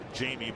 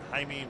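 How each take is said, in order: First: The name is said the anglicized way, like Jamie. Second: The name is said the Spanish way, like Hi-meh. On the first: The speaker calls it wrong. "we always mispronounced it" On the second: The speaker calls it right. "but Jaime Navarro"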